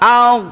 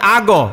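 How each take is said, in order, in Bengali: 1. gh ধ্বনিটি মসৃণ, কোনো প্রতিধ্বনি নেই। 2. gh ধ্বনিটি ঝংকার দেয়, সঙ্গে একটি স্বরধ্বনির প্রতিধ্বনি যোগ হয়।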